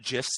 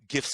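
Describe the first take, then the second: First: The word begins with a soft J-like sound. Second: The word begins with a hard G sound. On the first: "soft G"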